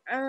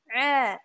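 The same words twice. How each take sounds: First: The vowel is nasal, through the nose. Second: The vowel is oral, not through the nose. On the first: The speaker calls it wrong. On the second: The speaker calls it right.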